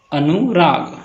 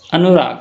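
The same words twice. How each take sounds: First: अनुराग broken in two, अनु, then राग; split into syllables. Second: Said in the usual way. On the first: Shown as a demonstration. Teacher showing two syllables, अनुराग split as अनु-राग. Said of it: "two syllables". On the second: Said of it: "म्हणजेच syllable पाडा".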